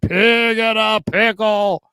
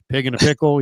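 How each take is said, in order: First: The phrase is said with exaggerated, showy emphasis. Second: The phrase is said in a plain, ordinary way. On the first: The name sticks in memory. "But if I say pig and a pickle, you remember it" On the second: The name is easy to forget. "If I say pig and a pickle, you forget"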